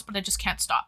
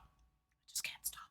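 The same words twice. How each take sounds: First: Said in the usual way. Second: Breathy whispered repeat. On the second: Real, not acted. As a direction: drop to a slow hush. Whisper after plain take.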